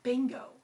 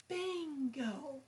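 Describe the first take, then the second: First: Said in the usual way. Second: BIN of Bingo held long; stress on first syllable. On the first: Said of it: "The first syllable is stressed". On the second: Shown as a demonstration. Demonstrating syllables in Bingo, first one stretched out. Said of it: "said a bit longer or louder".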